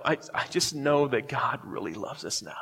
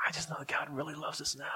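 First: Said in the usual way. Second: Whispered, retold tearful confession; hushed whisper. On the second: Weeping teenager answers his youth counselor, hushed whisper. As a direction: repeat it in a barely voiced whisper.

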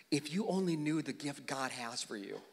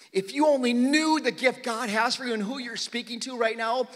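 First: Softer and lower, gently; tender quiet Jesus. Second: Said in the usual way. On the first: Acted. Jesus to the woman at the well, soft and tender. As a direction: let Jesus say it softly to her.

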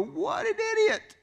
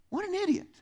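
First: Slow, very high mocking cry; scornful exclamation. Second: Squealed up high in mock disbelief; scornful exclamation. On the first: Churchgoer scoffing at the servant in the story. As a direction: drag it out in disbelief. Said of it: "we look at this story and go". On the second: Preacher mocking the foolish servant, squealing up high. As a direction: treat it as the dumbest thing you ever saw. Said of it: "read this story and go".

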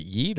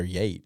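First: "[name]" with a long ee vowel; "[name]" pronounced like yeet; long-E pronunciation. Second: "Yate" with an ay vowel; "Yate" pronounced like yayt; long-A pronunciation. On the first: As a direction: say "[name]" to rhyme with feet. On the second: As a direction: say "Yate" to rhyme with gate. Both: Shown as a demonstration. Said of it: "Is it [name] or Yate?".

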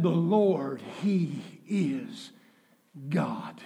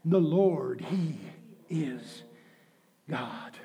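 First: Quiet. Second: Dropping almost to a whisper; hushed, fading. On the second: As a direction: let each word sink into hush. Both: Acted. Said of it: "repeats the line".

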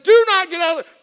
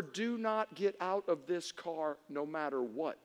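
First: Loud, high mock command; raised-voice remembered warning; mom's warning. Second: Slow, low, soft command; measured motherly warning, lowered voice; mom's stern warning. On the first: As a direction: belt out mother's order. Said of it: "My mom said". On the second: Retold or imitated. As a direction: spell out the order quietly and slowly. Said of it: "My mom, her last words were".

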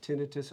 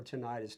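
First: "tinnitus" stressed on the first syllable; "tinnitus" with short i in the middle; pronunciation of tinnitus. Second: "tinnitus" stressed on the second syllable; "tinnitus" with long i in the middle; alternative tinnitus pronunciation. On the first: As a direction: say "tinnitus" as TIN-ih-tus. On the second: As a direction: say "tinnitus" as tih-NIGH-tus. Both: Shown as a demonstration. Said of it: "depends on how you pronounce it".

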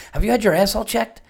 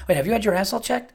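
First: High, quick, earnest imitation of a friend; mock-serious friend asking; dead serious question. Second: High, fast, earnest imitated question; hammed-up serious friend; utmost sincerity. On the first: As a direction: ask it dead seriously, squinting with interest. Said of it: "he didn't say it jokingly". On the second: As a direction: ask it with total sincerity. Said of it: "with the utmost sincerity".

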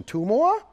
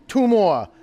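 First: "Two more?" rising high like a question; question tune. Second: "two more" slow and falling, stress on two; firm statement. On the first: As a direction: ask "Two more?" with a steep upward lift. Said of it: "rather than a question". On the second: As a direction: land "two more" flat and firm like a fact. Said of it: "say it like a statement". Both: Shown as a demonstration.

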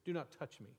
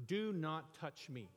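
First: Said in the usual way. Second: "Do not touch me" slow and stern, each word spaced; stern King James Jesus. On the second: Retold or imitated. Preacher voicing the King James Jesus, slow and stern. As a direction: forbid it with slow stern weight. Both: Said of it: "That's how the King James decided to interpret".

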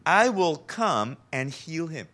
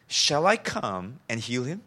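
First: Slow statement with weight on "I"; stress on I. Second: Rising question ending on "him". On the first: Preacher quoting Jesus's offer to heal, stress on "I". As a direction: lean on "I", then finish the statement falling. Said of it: "the emphasis on the word "I". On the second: Preacher rereading Jesus's line as a question, questioning rise. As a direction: turn the offer into a question, lifting at "him". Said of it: "to a question". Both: Shown as a demonstration.

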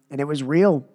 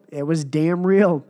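First: Said in the usual way. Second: Slow, leaning on damn real; slow, punchy Kurt Angle quote; Kurt Angle catchphrase. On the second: Retold or imitated. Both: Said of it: "as Kurt Angle said".

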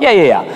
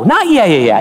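First: Brushing it off with a quick yeah yeah yeah; dismissive yeah yeah. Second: Preacher rejecting the easy yes, emphatic and earnest; emphatic correction. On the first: Retold or imitated. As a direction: congregation shrugging off the hard call, dismissive. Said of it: "You're like". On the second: Real, not acted.

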